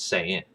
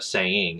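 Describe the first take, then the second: First: "saying" as "sayin'"; dropped G. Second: "saying" with full -ing ending; G pronounced. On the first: Showing the accent tip, "saying" with dropped G. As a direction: say "saying" with the ending cut to -in. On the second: Contrasting with dropped G, "saying" with full -ing. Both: Shown as a demonstration. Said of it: "They drop the G".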